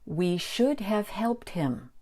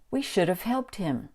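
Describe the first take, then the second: First: The word have is said fully, with h. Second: The word have is reduced to sound like of. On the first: "The full pronunciation is" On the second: "And the reduced pronunciation is"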